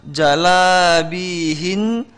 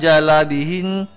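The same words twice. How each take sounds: First: Jalabihin very slow, 'bii' held; long ya. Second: Jalabihin with a short 'bi'; missed ya. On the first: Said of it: "huruf ianya di situ perhatikan". (jalabihin pelan dengan 'bi' panjang) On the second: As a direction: pass quickly over 'bi' in jalabihin. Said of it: "bukan jalabihin". (jalabihin dengan 'bi' pendek) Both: Shown as a demonstration.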